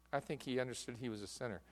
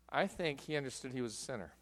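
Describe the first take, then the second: No difference in how they are said.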